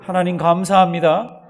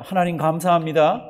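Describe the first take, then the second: First: Louder, stress on 감사합니다, rising; louder repeat. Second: Loud and clear for the congregation to echo; call to repeat. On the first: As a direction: push 감사합니다 up and out. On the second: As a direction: say it out so they can follow. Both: Shown as a demonstration. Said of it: "절 한번 따라 하십니다".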